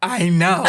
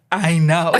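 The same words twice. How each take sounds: First: Said in the usual way. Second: A lightly done character voice, louder, with a laugh; Francis voice. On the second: Retold or imitated. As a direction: toss off I know in a lightly put-on voice. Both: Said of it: "In my Francis voice".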